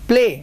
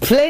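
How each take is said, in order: First: The word is said clearly. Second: The word is said unclearly. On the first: The speaker calls it right. "Clear sound में बोलो" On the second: The speaker calls it wrong. "Play नहीं"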